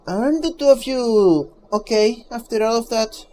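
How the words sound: It is said in a distinct character voice.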